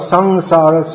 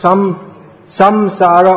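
First: The m sound is slightly softened. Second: The m sound is said fully.

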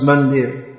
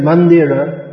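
First: The final vowel is dropped. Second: The final vowel is pronounced. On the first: "is pronounced mandir" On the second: "a word written mandira"

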